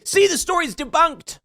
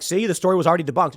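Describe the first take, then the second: First: "See, the story's debunked" squeaked much higher, taunting; high sneering gloat "See, the story's debunked"; mocking gloat. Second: "See, the story was already debunked" rattled off fast, lightly mocking; fast, half-hearted mimicry of the gloaters; quick mocking "See, the story was already debunked"; rushed mock gloat. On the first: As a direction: mimic a smug gloating opponent, pitched high. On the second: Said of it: "coming out and being like".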